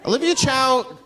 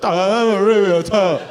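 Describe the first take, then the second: First: Said in the usual way. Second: Slow, hammed-up Chinese accent; mock Chinese accent. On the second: Comic wishing Olivia Chow had more accent, exaggerated Chinese accent. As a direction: say it with a thick, cartoonish Chinese accent. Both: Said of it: "I wish she had more of an accent".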